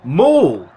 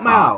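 First: The vowel rhymes with the vowel in ball. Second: The vowel differs from the vowel in ball. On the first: The speaker calls it right. "Ball. Ball. Mall" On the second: The speaker calls it wrong. "Not Mal"

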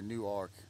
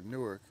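First: The name is said fully, as it is spelled. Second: The name is said in a reduced, blended way. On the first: This is how the Delaware town is said. "they say how it's spelled" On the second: This is how the local New Jersey name is said. "here it's Newark"

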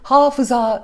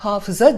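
First: The final a is long. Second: The final a is short. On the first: The speaker calls it wrong. "değil" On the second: The speaker calls it right. "diyorsak onun gibi"

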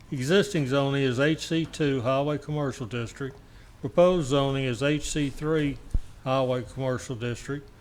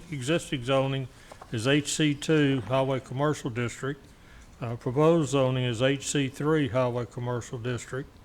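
Both takes have the same delivery.

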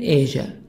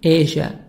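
First: It is said in an American accent. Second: It is said in a British accent. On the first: "American Asia" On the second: "British Asia"

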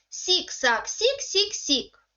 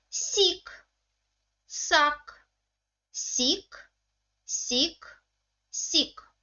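First: The syllables are read quickly. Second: The syllables are read slowly. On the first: "читаємо ці склади швиденько" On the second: "прочитаємо ці склади повільно"

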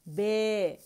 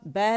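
First: The vowel is closer, leaning toward 'e'. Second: The vowel is open, with the tongue lying flat. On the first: "दरमियानी हिस्सा उठा लिया तो... आवाज़ side वेज जाती है" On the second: "ये नॉर्मल ज़बान की पोजीशन है, लेटी हुई ज़बान"

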